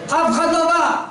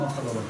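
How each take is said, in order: First: Ringing, emphatic "אף אחד לא בא"; emphatic repeat. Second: Low, soft "אף אחד לא בא" falling away; muted, deflated "אף אחד לא בא"; quiet letdown. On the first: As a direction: drive the point home. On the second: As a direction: let the words sink in disappointment. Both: Shown as a demonstration.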